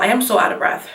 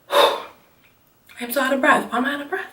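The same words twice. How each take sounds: First: Said in the usual way. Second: Real breathless sigh, then softer, higher words; out of breath. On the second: Real, not acted. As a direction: gasp the words out between breaths.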